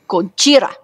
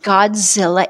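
First: The name is said as Gojira, with j and r. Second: The name is said as Godzilla, with z and l. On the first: The speaker calls it right. "it's Gojira" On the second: The speaker calls it wrong. "it's not Godzilla"

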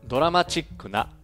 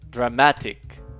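First: The syllable before the final k is 'chi'. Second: The syllable before the final k is 'ti'. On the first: "前半で日本語訳の説明としてカタカナ語を導入します" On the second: "後半での英語の発音の際"

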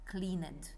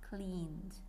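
First: The ending is voiced, giving two syllables. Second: The ending is silent, giving one syllable. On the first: The speaker calls it wrong. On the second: The speaker calls it right.

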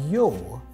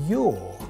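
No difference in how they are said.

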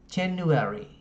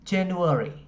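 First: The ending has a full, long 'e' vowel. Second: The ending has a weak, reduced 'uh' vowel.

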